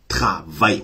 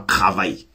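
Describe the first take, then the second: First: The word is pronounced carefully and clearly. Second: The word is pronounced carelessly and loosely. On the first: The speaker calls it right. "On dit travail" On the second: The speaker calls it wrong. "On ne dit pas travail"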